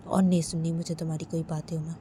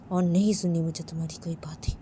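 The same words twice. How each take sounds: First: Firm, fast dismissal in a lightly voiced husband; curt refusal. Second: Fast, unvoiced whisper of और नहीं सुननी; whispered refusal. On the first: Sanjay tells Uma he won't listen, curt and fast. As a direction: say it flatly and quickly, no room for reply. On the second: Sanjay repeats to Uma that he won't listen, in a whisper. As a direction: hiss the refusal under your breath.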